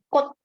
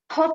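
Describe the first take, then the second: First: No consonant has any puff of breath. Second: The first consonant is aspirated with a puff. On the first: The speaker calls it right. "Semuanya mati, tidak dilupa" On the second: The speaker calls it wrong. "K-nya tidak pakai H ya"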